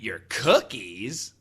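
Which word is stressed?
cookies. The word cookies carries the main stress. The speaker ate something else of the listener's. "I did not eat your cookies, but I did eat something else of yours"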